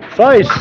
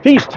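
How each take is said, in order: First: The vowel sounds like 'eye', as in 'feisty'. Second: The vowel sounds like 'ee', as in 'feast'. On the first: The speaker calls it wrong. "I keep saying Feist" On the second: The speaker calls it right. "I know it's right"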